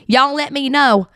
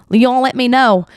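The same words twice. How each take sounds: First: Slow Southern country drawl on y'all let me know; country accent. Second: Said in the usual way. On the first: Shown as a demonstration. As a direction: stretch it out in a playful country accent. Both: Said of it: "I love doing my country accent".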